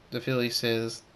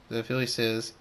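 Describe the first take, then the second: No difference in how they are said.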